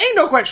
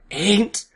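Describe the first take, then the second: First: The word is said quickly. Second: The word is drawn out slowly.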